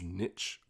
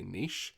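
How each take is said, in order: First: It rhymes with itch. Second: It does not rhyme with itch. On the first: This is another country's way. The speaker calls it wrong. "really grates me each time I hear it ... they're choosing to rhyme it with itch" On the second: This is the Australian way. The speaker calls it right. "whereas we would say niche"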